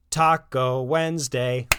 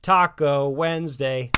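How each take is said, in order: First: Slow, loud call across the house; dad announcing taco night as he comes in; shouting. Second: Loud, drawn-out call; dad repeating his taco night announcement; shouting. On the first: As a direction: call out the dinner news. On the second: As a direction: boom it out happily. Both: Acted. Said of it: "Ron kept shouting".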